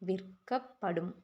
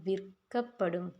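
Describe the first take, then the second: Both takes have the same delivery.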